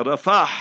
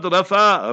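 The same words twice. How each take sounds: First: "Rafah" ending on an audible Arabic ha; Arabic pronunciation. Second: "Rafah" said the Western way, open ending without the h; wrong pronunciation. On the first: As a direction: say "Rafah" with the breathy h sounded at the end. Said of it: "Rafah with a ha in the end". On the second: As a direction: say "Rafah" as Western media do, final h dropped. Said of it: "proper Islamic Arabic pronunciation". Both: Shown as a demonstration.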